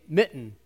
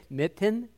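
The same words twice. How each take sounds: First: "mitten" as mi'n, no released t; "mitten" with glottal stop. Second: "mitten" with a clear t before the second vowel; "mitten" with sounded t. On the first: Offering the audience the usual way, "mitten" with glottal stop. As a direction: catch the throat in place of the t in "mitten". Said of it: "you hear that little stop in the middle". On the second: Quizzing the audience on who says it, "mitten" with sounded t. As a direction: say "mitten" as mit-ten, the t released. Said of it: "if you're also saying mitten". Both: Shown as a demonstration.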